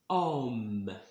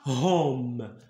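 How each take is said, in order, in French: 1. Le mot commence directement par la voyelle. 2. Le mot commence par un h prononcé. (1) "on dit homme" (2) "On dit pas"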